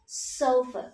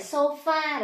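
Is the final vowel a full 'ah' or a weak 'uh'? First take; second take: weak 'uh'; full 'ah'. First: The word ends with a weak 'uh' vowel. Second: The word ends with a full 'ah' vowel. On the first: The speaker calls it right. "chữ A phiên âm thành âm ơ" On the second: The speaker calls it wrong. "Cái từ này chúng ta hay đọc là gì nhỉ?"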